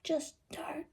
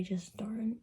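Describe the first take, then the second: First: High, odd whisper of "Just don't"; odd whispered take. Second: Said in the usual way. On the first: Shown as a demonstration. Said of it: "I didn't say it like that". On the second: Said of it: "after you say".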